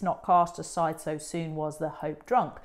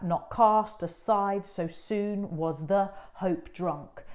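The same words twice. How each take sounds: First: Said in the usual way. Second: Slow, "cast" and each second beat leaned on; iambic stress. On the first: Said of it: "with the ten beats". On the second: Shown as a demonstration. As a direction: read it out beat by beat. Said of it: "how they should emphasise".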